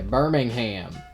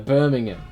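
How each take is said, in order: First: It is said with an American pronunciation. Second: It is said with a British pronunciation.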